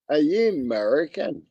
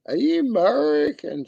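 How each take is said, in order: First: Said in the usual way. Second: Pitched way up, sing-song; high mock question. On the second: Teasing a chat viewer, asking again much higher. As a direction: squeak the repeat up high.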